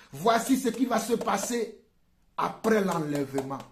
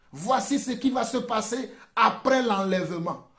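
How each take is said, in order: Both takes have the same delivery.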